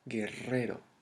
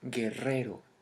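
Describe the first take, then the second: No difference in how they are said.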